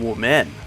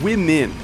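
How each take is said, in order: First: The first syllable sounds like 'woo'. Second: The first syllable sounds like 'wim'. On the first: "if you wanted to pronounce it accurately" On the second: "That's how you say the plural of woman"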